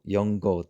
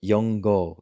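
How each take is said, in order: Both takes have the same delivery.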